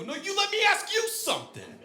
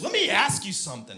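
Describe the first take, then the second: First: Very high mock-angry retort; pissed off. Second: Mock irate woman, pitched up; pissed off. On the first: Prankster turning Marie's words back on her, pissed off. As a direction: throw it back at a heightened, indignant pitch. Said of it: "And I got pissed". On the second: Marie challenging the prank caller, pissed off. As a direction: imitate an annoyed woman challenging someone. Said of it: "Marie got pissed".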